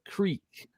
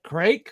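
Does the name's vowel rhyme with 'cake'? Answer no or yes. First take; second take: no; yes. First: The vowel does not sound like cake's. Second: The vowel sounds like the one in cake. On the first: The speaker calls it wrong. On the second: The speaker calls it right.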